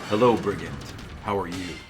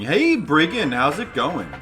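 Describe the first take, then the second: First: It is said in a put-on detective voice. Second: It is said in his normal voice.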